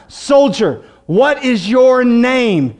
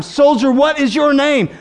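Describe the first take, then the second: First: Drawn-out, weighty commander's question; deliberate, forceful interrogation; slow stern demand. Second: Higher, insistent commander; stern officer repeating his demand; sterner demand. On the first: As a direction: stretch each word of the demand slowly. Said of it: "A third time". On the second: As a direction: press the question harder, pitched up. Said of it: "A second time". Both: Acted.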